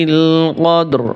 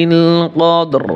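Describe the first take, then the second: No difference in how they are said.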